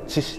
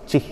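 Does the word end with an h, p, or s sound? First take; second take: s; h. First: The word ends with an s sound. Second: The word ends with an h sound. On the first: "カラフトではチシって言ったり" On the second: "チヒって言って"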